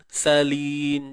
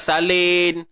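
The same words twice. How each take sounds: First: The s is heavy and thick. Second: The s is light and thin. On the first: The speaker calls it right. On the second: The speaker calls it wrong.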